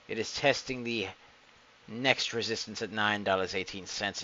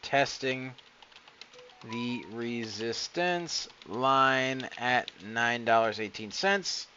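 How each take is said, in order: First: It is said in a Darth Sidious voice. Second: It is said in his own normal voice.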